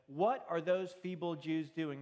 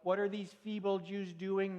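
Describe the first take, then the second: First: It is said in his normal reading voice. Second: It is said in a Doctor Evil impression.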